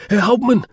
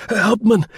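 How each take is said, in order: First: Excited cry. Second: Raucous, much higher and louder call; frantic shout through the door; excited cry. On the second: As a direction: hammer on the door, calling the captain. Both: Acted. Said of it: "raucous with excitement".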